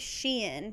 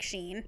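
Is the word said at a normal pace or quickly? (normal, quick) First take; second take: normal; quick. First: The name is said at a normal, careful pace. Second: The name is said quickly and more reduced. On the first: "I say Shein usually" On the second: "if I say it quick, it'll just come out like Shein"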